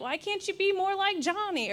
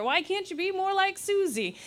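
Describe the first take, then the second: First: Lightly voiced nagging parent; a hint of a scolding mum comparing siblings. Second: Lightly voiced nagging parent again, pitched higher; a touch of the scolding mum. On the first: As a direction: parent comparing a child to a sibling, mildly scolding, pitched higher. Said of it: "and they're like". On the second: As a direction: parent comparing a child to a sibling, mildly scolding.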